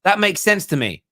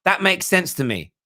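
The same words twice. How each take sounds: The two takes are said the same way.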